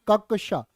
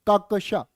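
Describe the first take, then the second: The two takes are said the same way.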